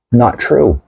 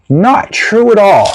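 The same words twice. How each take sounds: First: Said in the usual way. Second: "Not true at all" slower, higher, with NOT hit hard; emphatic denial. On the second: Shown as a demonstration.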